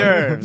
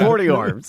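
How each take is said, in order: First: It is said the usual way, 'or-derves'. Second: It is said as 'horty orbs'.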